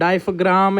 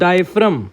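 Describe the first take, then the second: First: A g sound is heard near the end. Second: No g sound is heard near the end. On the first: The speaker calls it wrong. "ऐसे गंदी गंदी pronunciation नहीं करना" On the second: The speaker calls it right. "जी is silent here"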